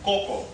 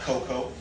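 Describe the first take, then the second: First: The name is said with a Spanish accent. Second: The name is said without a Spanish accent. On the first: The speaker calls it right. "You had to have a little bit of a Spanish accent when you said it" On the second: The speaker calls it wrong. "Not Coco"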